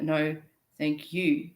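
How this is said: The stress falls on the word you. The speaker is grateful to the listener. The speaker calls it right. "with an emphasis on the you"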